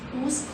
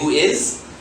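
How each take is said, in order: First: It is said as one short contracted word. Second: It is said as two separate full words. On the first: The speaker calls it right. "It just becomes whose" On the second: The speaker calls it wrong. "Do we say who is?"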